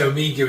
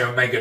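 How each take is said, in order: First: The word is said the British way. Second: The word is said the American way. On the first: "we say Omega in England" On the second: "the Americans say Omega"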